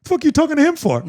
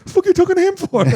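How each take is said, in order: First: Imitating the kid, much higher and blunt; blunt kid's retort. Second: Imitating the kid, very high and squeaky-blunt; blunt kid's retort again. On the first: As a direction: mimic the boy's blunt snap, pitched up high. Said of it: "he turns to the camera and he goes". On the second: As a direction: push the mimicry even higher for the punchline. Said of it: "He goes".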